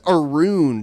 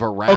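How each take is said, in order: First: The word is said in an imitated regional accent. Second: The word is said in a standard accent. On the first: This is how the imitated person says it. "He also says around" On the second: This is the usual way to say it. "instead of around"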